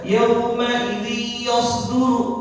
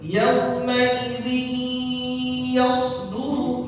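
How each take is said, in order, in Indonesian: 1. Tidak ada bunyi sengau yang ditahan. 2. Bunyi sengau ditahan selama dua harakat. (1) "itu enggak ada gunnah di situ" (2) "kita tahan bacaannya selama berapa harokat? Selama dua haro harokat"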